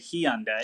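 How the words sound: It is said with an Australian pronunciation. "we say Hyundai"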